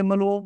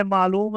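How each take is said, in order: First: معلوم squashed to ma-loom; short first syllable in معلوم, no ain; swallowed ain. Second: معلوم with long first syllable, maa-loom; clear ain. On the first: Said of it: "عین کو واضح کر کے نہیں پڑھتے". (معلوم میں عین کھا کر) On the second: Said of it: "اس میں عین ہے". (معلوم میں عین واضح) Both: Shown as a demonstration.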